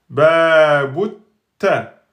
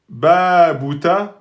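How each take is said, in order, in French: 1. Le son t est doublé et tenu. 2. Le son t est simple, non doublé. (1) "pour faire la soukoun, la shudda" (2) "vous avez oublié la shudda et donc c'est une faute grave"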